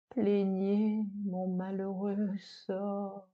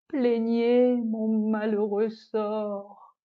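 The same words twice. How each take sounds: First: A hushed, sorrowful plea, softer; soft lament. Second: Slow, weeping plea for pity; tearful lament. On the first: The spurned dish begs the audience, softly mournful. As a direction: beg the listeners quietly for pity. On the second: The disgraced dish begs the audience, slow and tearful. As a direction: drag the words out as if on the verge of tears. Lament after being sent away. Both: Acted.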